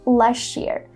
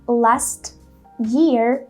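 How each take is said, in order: First: The two words are linked with a ch sound. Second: The two words are said separately, without ch. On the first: "He adds this ch sound" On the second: "instead of saying last year"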